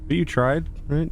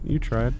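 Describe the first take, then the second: First: Tried rising up in a hopeful ask; you tried said as a gentle question. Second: Said in the usual way. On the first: Real, not acted. Player comforting the robot, rising hopeful question.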